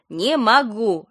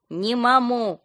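First: Louder, grumpy "Не могу"; sleepy and cross. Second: Higher, muffled sleepy moan; mumbled groan. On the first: Friend repeating herself on phone, sleepy irritation. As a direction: snap "Не могу" clearly, still drowsy. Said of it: "Лена звучала сонно и сердито". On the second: Friend woken by a call, muffled mumble. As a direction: garble "Не маму" through a half-asleep mouth. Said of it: "промычала в ответ". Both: A narrator's reading.

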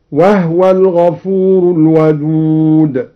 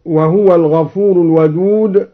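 First: وهو said as wahwa, haa silent without a vowel, slow chanted recitation; read with sukun on the haa. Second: Said in the usual way. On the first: Shown as a demonstration. Teacher demonstrates al-Duri's reading to students, slow chanted recitation. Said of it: "هكذا". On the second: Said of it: "سكن الهاء".

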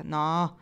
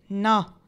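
First: Strangely calm. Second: A louder, firmer no; a firm no, noticeably louder; firmer repeat. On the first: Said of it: "con voce stranamente tranquilla". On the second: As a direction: repeat it with more weight. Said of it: "ripeté". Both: A narrator's reading.

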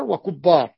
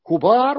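First: وكبار as wa-kubbaar, double b; doubled middle consonant. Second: كبار as kubaar, single b; light middle consonant. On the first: Teacher giving examples to students, وكبار with a doubled ب. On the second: Teacher giving examples to students, كبار with a single ب. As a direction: keep the ب short and undoubled in كبار. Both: Shown as a demonstration. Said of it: "وكبار بالتشديد أو التخفيف".

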